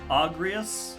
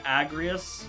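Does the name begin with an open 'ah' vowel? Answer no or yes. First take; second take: yes; no. First: The first vowel is an open 'ah' sound. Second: The first vowel is not an open 'ah'. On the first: "open your mouth and say ah" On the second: "rather than"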